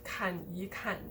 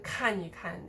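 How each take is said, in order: First: The syllables after the first 看 are stressed. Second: The syllables after the first 看 are unstressed. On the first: The speaker calls it wrong. "instead of" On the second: The speaker calls it right. "also de-stressed"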